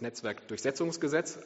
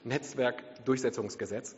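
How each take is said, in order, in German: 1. Die Betonung in 'durchsetzung' liegt auf 'setz'. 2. Die Betonung in 'durchsetzung' liegt auf 'durch'. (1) "Wenn man es falsch ausspricht" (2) "Aber nein, es ist das"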